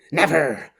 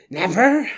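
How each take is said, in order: First: Said in the usual way. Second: Never. rising much higher with a strained lift at the end; fevered never. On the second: Acted. Quiddell losing control over Billy, strained high Never. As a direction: let Never. climb high and unhinged.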